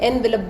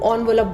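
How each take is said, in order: First: The word begins with an 'en' sound. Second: The word begins with an 'on' sound. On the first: This is the older way of saying it. "हम पहले एनवेलप बोलते थे" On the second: This is how it is said nowadays. "आजकल लोग ऑनवेलप बोलते हैं"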